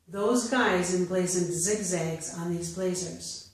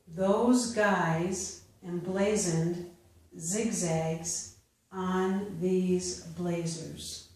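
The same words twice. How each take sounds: First: The sentence is read at natural speed. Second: The sentence is read slowly. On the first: "a second time at a more natural pace" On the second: "I will first read them slowly"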